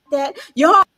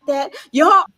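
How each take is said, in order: First: Said in the usual way. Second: Louder, shouted that y'all; half-mock shout of embarrassment; embarrassed shout. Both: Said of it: "I was like".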